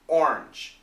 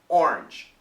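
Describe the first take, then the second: First: The word is said in one syllable. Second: The same.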